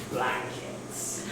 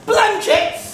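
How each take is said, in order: First: Low, hushed, barely voiced; sinister reveal. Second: High-pitched questioning cry; incredulous echo. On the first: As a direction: breathe it out as a devious secret. Revealing a devious plot. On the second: Acted. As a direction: throw it back high, rising at the end. Crewmate echoes the plot in disbelief.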